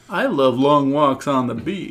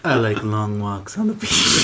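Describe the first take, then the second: First: It is said in a plain, unseductive way. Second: It is said in a sexy, seductive way.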